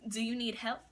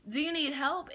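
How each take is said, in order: First: Mildly innocent offer of help; innocent and sweet. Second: Higher, eager innocent offer; innocent and sweet. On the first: Cashier offering customers help, mildly innocent and sweet. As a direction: ask it like sweet little me, understated. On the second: Cashier asking the customer again, higher, sweetly innocent. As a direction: lift the pitch like a sweet, helpful cashier. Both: Retold or imitated. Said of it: "Innocent, sweet little me".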